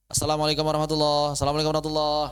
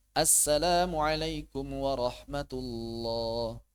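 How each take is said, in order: First: Clipped fast syllables; rushed salam. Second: Drawn-out careful salam; slow salam. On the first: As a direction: race through it the wrong way. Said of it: "Aduh, bahaya". (salam terburu-buru yang salah) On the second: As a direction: say it slowly and fully. (salam pelan dan lengkap) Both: Shown as a demonstration.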